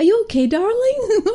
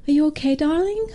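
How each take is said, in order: First: High, hammed-up American mum voice; badly faked American accent, drifting towards Irish; attempted American accent. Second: Put-on mum checking on her child, voice lifting high at the end; gently ask, pitch rising on darling; concerned mother. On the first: Retelling an American mum to her daughter, shaky American accent attempt. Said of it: "that's not how American accent speaks". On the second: Mum asking her upset daughter after school, concerned and high. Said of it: "And she goes".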